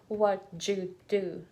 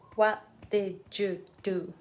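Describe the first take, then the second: First: It is contracted into three syllables with a j. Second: Every word is said fully, in four syllables. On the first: "Three syllables" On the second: "I didn't say it"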